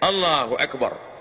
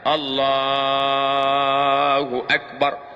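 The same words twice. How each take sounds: First: The phrase is said short and quick. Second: The phrase is drawn out slowly. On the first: The intention was made before the takbir. "yang takbirnya pendek" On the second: The intention is made during the takbir. "saya takbirnya panjang"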